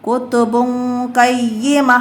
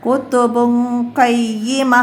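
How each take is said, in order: No difference in how they are said.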